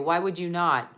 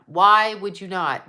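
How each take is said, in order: First: Said in the usual way. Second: "Why" hit louder and slower; emphatic repeat. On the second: Shown as a demonstration. Repeating herself with weight on "Why", slower and louder. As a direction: land "Why would you not?" harder the second time, slowing on "Why".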